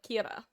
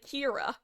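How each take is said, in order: First: The r is a light Japanese tap. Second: The r is a hard English r. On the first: The speaker calls it right. "pronounce it like quote unquote properly" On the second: The speaker calls it wrong. "will just do the the hard R"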